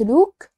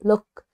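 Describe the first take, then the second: First: The vowel is drawn out long. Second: The vowel is kept short. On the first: The speaker calls it wrong. "قلت look؟" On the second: The speaker calls it right. "لا look كده short"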